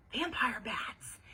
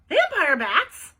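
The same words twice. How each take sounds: First: Slow, falling confirmation; matter-of-fact confirmation. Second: Loud, high, drawn-out question; astonished. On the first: Ivy confirms her claim to Bean, matter-of-fact. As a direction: state it slowly as settled fact. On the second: Bean hears Ivy's warning about blood, astonished. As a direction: blurt it out in loud disbelief. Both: A narrator's reading.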